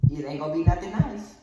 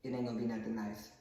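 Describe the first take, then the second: First: Loud threat with a lifted voice; mom's threat. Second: Low, soft, quick comeback; subdued retort. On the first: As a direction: warn them loudly as a fed-up mother. Mother's threat, then son's retort. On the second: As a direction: say the threat back under your voice. Son's low retort after mother's threat. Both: Acted.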